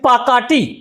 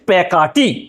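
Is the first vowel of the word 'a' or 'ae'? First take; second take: a; ae. First: The first vowel is an open 'a' sound. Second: The first vowel is an 'ae' sound. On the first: This is how the word is written. "লেখা হয়েছে পাকাটি" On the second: This is how the word is actually spoken. "উচ্চারণ করছি প্যাকাটি"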